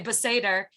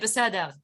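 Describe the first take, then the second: First: It is said with an American accent. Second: It is said with an Israeli accent.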